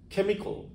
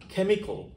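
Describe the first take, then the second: The two takes are said the same way.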